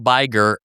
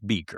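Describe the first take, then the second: First: The first vowel sounds like 'eye'. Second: The first vowel sounds like 'ee'. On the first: This is the German way, rhyming with Meyer. "it's German, ... it's Meyer, so it's Biger" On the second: This is how the townspeople say it. "Everybody in town says Beaker"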